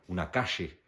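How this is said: The middle consonant is a 'sh' sound.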